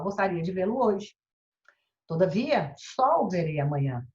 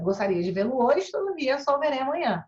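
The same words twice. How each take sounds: First: There is a long pause before todavia. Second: There is a short pause before todavia. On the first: The contrast is given emphasis. "você faz uma pausa um pouquinho maior" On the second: The contrast is not specially emphasized. "Uma pausa mais rápida"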